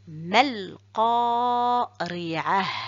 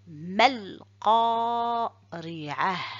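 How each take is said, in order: First: The last word ends in a soft h sound. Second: The same.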